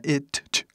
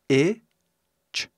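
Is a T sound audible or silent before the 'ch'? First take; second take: audible; silent. First: A separate T sound is heard before ch. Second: The T sound is silent before the ch. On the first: The speaker calls it wrong. "ninguém fala assim" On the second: The speaker calls it right. "veio a pronúncia"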